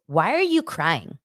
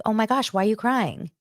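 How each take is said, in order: First: Flat, slow dismissive "Why are you crying?"; cold tone. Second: Higher, concerned "Oh my gosh, why are you crying?"; caring friend; sympathetic tone. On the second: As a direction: say it with real care. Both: Shown as a demonstration. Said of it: "It's a tone thing".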